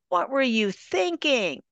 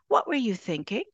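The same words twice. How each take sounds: First: It is said in a closed, judgmental tone. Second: It is said in an open, curious tone. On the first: The speaker is criticizing the listener's choice. "That tone is closed. That tone is judgmental" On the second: The speaker genuinely wants to understand. "That's wrapped in a tone of openness. I'm curious. I'm inquisitive"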